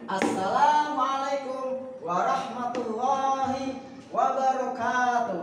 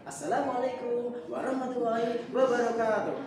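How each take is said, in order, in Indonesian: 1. Vokal panjang ditahan dua ketukan. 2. Vokal panjang dipendekkan. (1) "ini yang panjang-panjang nih Bu. Ini yang dua ketukan dua ketukan" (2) "ini sudah menghilangkan apa namanya tajwidnya Bu, panjang pendeknya"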